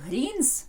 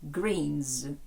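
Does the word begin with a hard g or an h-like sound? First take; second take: h-like; hard g. First: The word begins with a soft h-like sound. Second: The word begins with a hard g sound. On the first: The speaker calls it wrong. "Не «greens»" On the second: The speaker calls it right. "а «г» – «greens»"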